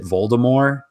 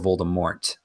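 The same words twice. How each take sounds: First: The final T sound is silent. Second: The final T sound is pronounced. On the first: This is the older audiobook pronunciation. "he still pronounces it Voldemort" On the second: This is the pronunciation used in the films. "like the movies kind of added the T"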